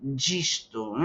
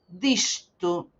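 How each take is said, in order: First: It begins with a j-like sound. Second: It begins with a plain d sound. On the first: "Yo pronuncio como carioca, entonces no puedo decir disto, voy a decir gisto" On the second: "perdón, lo dije mal"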